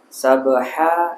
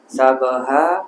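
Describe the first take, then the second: First: The h sound is pressed and breathy. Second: The h sound is light and plain. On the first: "Sabha itu ha pedih" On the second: "sabha itu ha besar"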